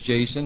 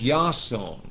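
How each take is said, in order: First: The name begins with a J sound. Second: The name begins with a Y sound. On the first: This is the English form of the name. "pronounced as Jason like it is in English" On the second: This is the original Greek form of the name. "was pronounced as Yason"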